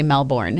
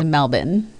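First: The R sound is pronounced in the word. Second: The R sound is dropped from the word. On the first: The speaker calls it wrong. "they don't say Melbourne" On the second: The speaker calls it right. "They don't say their R's in a lot of things"

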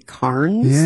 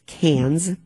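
First: It sounds like 'carnes'. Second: It sounds like 'cans'. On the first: The speaker calls it wrong. "we would say Carnes" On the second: The speaker calls it right. "But it's Cairns. As Colleen likes to say, think of beer cans"

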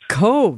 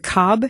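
First: The name rhymes with 'stove', ending in a v-sound. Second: The name rhymes with 'job', with a short vowel. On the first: The speaker calls it right. "It's actually Cove" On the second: The speaker calls it wrong. "am I saying that correctly"

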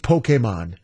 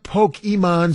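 First: The middle vowel is a long A. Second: The middle vowel is not a long A. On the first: The speaker calls it right. "It's Pokemon. A, long A" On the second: The speaker calls it wrong. "It is not Pokemon"

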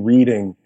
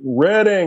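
First: The first syllable sounds like 'reed'. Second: The first syllable does not sound like 'reed'. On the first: The speaker calls it wrong. "because it's spelled R-E-A-D" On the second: The speaker calls it right. "And they were like"

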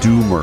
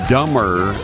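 First: The first vowel sounds like 'oo'. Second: The first vowel sounds like 'uh'. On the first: The speaker calls it right. "Dummer is actually pronounced Doomer" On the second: The speaker calls it wrong. "somebody has texted in to correct you"

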